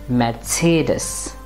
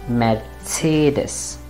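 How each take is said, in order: Both takes have the same delivery.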